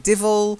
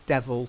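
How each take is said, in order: First: The first vowel sounds like 'ih'. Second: The first vowel sounds like 'eh'. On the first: This is a non-standard, dialect pronunciation. "you do hear people say divil" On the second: This is the standard pronunciation. "The correct phonetic pronunciation is devil"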